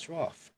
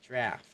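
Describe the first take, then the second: First: It is said with a British accent. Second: It is said with an American accent. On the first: "So in British, they pronounce it as" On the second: "In American, it's"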